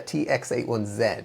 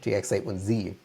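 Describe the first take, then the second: First: The final letter is said the non-American way. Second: The final letter is said the American way.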